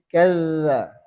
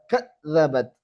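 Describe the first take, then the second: First: Kadza with the dz clipped; cut zal. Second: Kadzabat with the dz running on; flowing zal. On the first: Teacher showing the mistake. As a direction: clip the dz in kadza. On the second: Teacher modelling correct zal. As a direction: let the dz in Kadzabat flow. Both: Shown as a demonstration.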